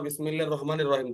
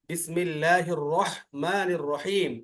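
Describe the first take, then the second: First: The h is a light plain breathy sound. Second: The h is a strong sound from mid-throat. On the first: The speaker calls it wrong. "এভাবে যদি পড়ো" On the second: The speaker calls it right. "হলকের মাঝখান থেকে হা হয়।"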